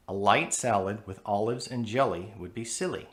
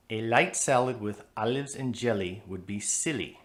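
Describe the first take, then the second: First: "light", "olives", "jelly", "silly" all with dark L's; American dark L. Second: "light", "olives", "jelly", "silly" all with light L's; light L foreign sound. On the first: Teacher giving the American version. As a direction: pull every L back toward the throat. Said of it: "That sounds more American". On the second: Teacher showing the foreign sound. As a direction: say every L forward and thin, a foreign accent. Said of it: "All those light L's give that sentence a foreign sound". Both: Shown as a demonstration.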